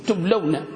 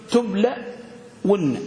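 First: "تبلون" run together as tub-law-na; joined-up pronunciation. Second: "تبلون" split, tub-laa, pause, wun-na; sounded out slowly. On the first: Teacher shows class the resulting word, joined up. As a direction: say "تبلون" in one piece, falling at the end. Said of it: "هكذا". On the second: Teacher shows class what the word became, slowly split. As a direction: draw out "تبلون" in two separate pieces. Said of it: "شو صبحت؟". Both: Shown as a demonstration.

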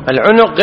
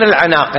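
First: العنق with two short u's; damma on ع. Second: العناق with a long a; contrasting word. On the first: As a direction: say العنق as al-'unuq. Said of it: "العنق بضم العين". (العنق بضم العين) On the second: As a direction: say العناق as al-'anaq. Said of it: "العنق غير العناق". (العناق بألف ممدودة) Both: Shown as a demonstration.

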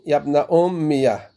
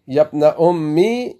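First: "أمية" ending in ya plus an open a; "أمية" ending on an added short a after the ya; fatha on the ya. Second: "أمي" ending in a plain long i with no vowel after the ya; "أمي" closed on a still i; sukun on the ya. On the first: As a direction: say "يا ابن أمية" with the ya opened to ya-a. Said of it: "أو فتحة الياء". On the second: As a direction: say "يا ابن أمي" with the ya resting silent. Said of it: "إما سكون الياء". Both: Shown as a demonstration.

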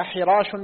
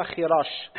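First: حراش starting with breathy pharyngeal ح; undotted ḥa. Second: خراش starting with velar fricative خ; dotted kha. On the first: Student reading names to his teacher, حراش with pharyngeal ḥ. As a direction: say حراش with ḥ, as ḥirāsh. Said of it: "بالحاء المهملة". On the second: Student reading names to his teacher, خراش with scraped kh. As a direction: say خراش with kh, as khirāsh. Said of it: "بالخاء المعجمة". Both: Shown as a demonstration.

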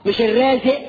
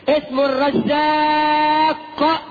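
First: Short "الرازق" ending in a glottal stop; "الرازق" with the q swallowed; wrong pronunciation. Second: High, very slow "الرزاق" with a long held aa; "الرزاق" drawn out high with full qaf; emphatic correct pronunciation. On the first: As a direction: dismiss "الرازق" said as "er-raaze'". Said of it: "مش الرازق". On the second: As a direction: stretch "الرزاق" almost chanting, then pop the final q. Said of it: "بمنطوقه الصحيح". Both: Shown as a demonstration.

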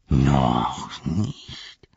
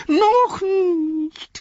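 First: Lower, slow hissing noch nicht; low Gollum voice. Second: High pleading whine on noch; high whiny Smeagol. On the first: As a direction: brood it low and sly. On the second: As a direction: beg in a thin high voice. Smeagol pleading against Gollum. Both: Acted.

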